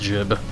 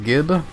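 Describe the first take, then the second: First: The word starts with a j sound. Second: The word starts with a hard g sound. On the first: "most people will also say it's uh, pronounced jib" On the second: "I usually say gib"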